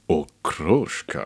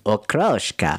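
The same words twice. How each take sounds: First: It is said in a normal voice. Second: It is said in a high, squeaky helium voice.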